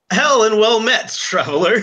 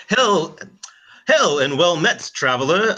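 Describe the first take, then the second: First: A light posh British RP greeting, a little higher. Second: A shaky try at posh British RP; attempted RP accent. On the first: Acted. Player voices Heron greeting in posh RP. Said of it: "he goes". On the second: Player attempts Heron's posh RP greeting to himself. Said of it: "it's so hard to R P".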